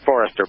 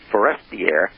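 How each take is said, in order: First: The name ends like English 'Forrester'. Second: The name ends like French 'Forestier'. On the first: The speaker calls it wrong. "not Forrester" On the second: The speaker calls it right. "but Forestier"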